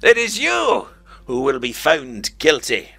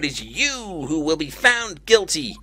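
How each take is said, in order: First: Said in the speaking character's own put-on voice. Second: Said in the other character's put-on voice. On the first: The speaker calls it right. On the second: The speaker calls it wrong.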